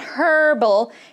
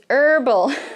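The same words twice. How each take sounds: First: The word begins with a breathy H sound. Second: The word begins directly with a vowel sound. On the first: The speaker calls it wrong. "Don't say that H. It's not herbal" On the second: The speaker calls it right. "it's herbal"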